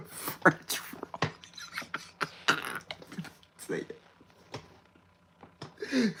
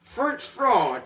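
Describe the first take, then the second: First: Breathy whispered repeat. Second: Said in the usual way. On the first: Shown as a demonstration. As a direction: whisper it to yourself.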